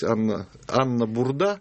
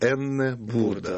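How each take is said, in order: First: The first name starts with an 'ah' sound. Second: The first name starts with an 'eh' sound. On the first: This is the customary Russian form of the name. The speaker calls it wrong. "у нас всегда было принято называть" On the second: This is the German form of the name. The speaker calls it right. "по-немецки правильно ее называть"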